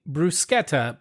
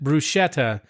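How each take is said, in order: First: The middle consonant sounds like a k. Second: The middle consonant sounds like sh. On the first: "when you say bruschetta" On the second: "but you pronounce it bruschetta, I slowly die inside"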